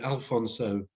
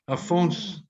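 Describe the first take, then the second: First: The final syllable is said in full. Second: The final syllable is swallowed, ending on 's'. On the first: The speaker calls it wrong. "I always want to put an L in it" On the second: The speaker calls it right. "they swallow like sort of half the the word"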